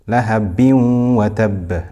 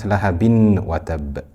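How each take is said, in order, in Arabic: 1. تُدغم النون 'n' الأخيرة في 'w' التي بعدها. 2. تُنطق النون 'n' الأخيرة بوضوح قبل 'w'. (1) "so we know it is idgham" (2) "not lahabin wa tab"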